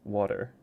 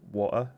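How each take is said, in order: First: The middle T sounds like a soft D. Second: The middle T is skipped over completely. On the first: "It's like the D sound rather than the T sound" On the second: "a lot of British people either skip over the soft T completely"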